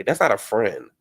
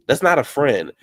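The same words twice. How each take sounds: First: Said in the usual way. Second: "not" hit hard and loud; louder emphatic repeat. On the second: Real, not acted. Host repeating her verdict on Greg's friends, louder. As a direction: slam the point home on "not".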